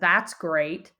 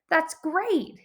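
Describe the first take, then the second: First: It is said in a sarcastic tone. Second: It is said in a cheerful tone. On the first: The son is not happy about the vacation. "his tone would be sarcastic" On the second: The son is happy about the vacation. "his response would be really cheerful"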